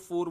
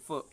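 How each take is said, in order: First: The final r sound is pronounced. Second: The final r sound is dropped. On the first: "अपन फोर फोर बोलते हैं" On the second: "र की जो ध्वनि है वो बोली नहीं जा रही है"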